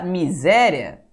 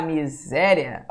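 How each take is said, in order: First: Said in the usual way. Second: "miséria" drawn out slowly, leaning on SÉ; sílabas alongadas. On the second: Shown as a demonstration. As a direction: stretch "miséria" to show its syllables. ("miséria" bem devagar, alongando o SÉ) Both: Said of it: "separação silábica".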